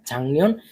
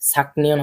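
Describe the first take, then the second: First: The first syllable ends in an ng sound. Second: The first syllable ends in a k sound. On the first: The speaker calls it right. "উচ্চারণ হবে ঝাংনিয়ন" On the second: The speaker calls it wrong. "ছাকনিয়ন হবে না"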